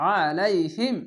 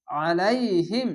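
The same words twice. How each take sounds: First: আলাইহিম with a thick pressed ain, recited; throaty ain recitation. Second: আলাইহিম drawn out very slowly, ain pressed; slow recitation. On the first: Teacher reciting the joined word: heavy throaty ain. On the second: Teacher first reciting the word: very slow. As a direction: stretch আলাইহিম slowly syllable by syllable. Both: Shown as a demonstration. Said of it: "আইনটিকে মোটা করে গলা চিপে পড়বেন".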